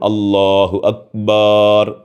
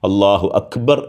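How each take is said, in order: First: The last vowel of Akbar is drawn out long. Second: The last vowel of Akbar is short. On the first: It comes to mean drums in relation to God. The speaker calls it wrong. "ആ ഒരൊറ്റ അക്ഷരം നീളുക" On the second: God is the greatest. The speaker calls it right. "അള്ളാഹു അക്ബർ എന്ന് പറയുന്നതിന് പകരം"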